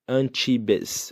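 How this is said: It is said with a Brazilian Portuguese pronunciation. The speaker calls it wrong. "um português pronunciaria, um brasileiro pronunciaria"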